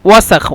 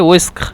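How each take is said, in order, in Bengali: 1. প্রথম স্বরধ্বনিটি 'a' ধ্বনি। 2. প্রথম স্বরধ্বনিটি 'e' ধ্বনি। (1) "ওয়াসাখ মানে শুদ্ধ ভাষা" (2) "মিশরীরা বলে ওয়েস্ক"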